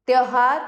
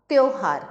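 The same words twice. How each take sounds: First: त्योहार said as "tyau-haar"; loud त्योहार with "au" for "o"; wrong au vowel. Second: Said in the usual way. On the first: Shown as a demonstration. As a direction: open the first vowel of त्योहार to "au". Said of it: "त्योहार नहीं होता है". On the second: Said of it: "त्योहार होता है".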